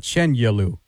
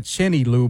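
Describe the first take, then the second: First: "Chenyelu" with "yeh" in the middle, CHEN-yeh-loo; corrected pronunciation. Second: "Chenny Lou" with an "ee" in the middle, CHIN-ee-loo; mistaken pronunciation. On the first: Host shows reporter the preferred surname, "Chenyelu" said CHEN-yeh-loo. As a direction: say "Chenyelu" with a y-glide after CHEN. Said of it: "but Chenyelu". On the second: Host shows reporter the rejected surname, "Chenny Lou" said CHIN-ee-loo. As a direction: say "Chenny Lou" like two first names. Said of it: "not Chenny Lou". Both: Shown as a demonstration.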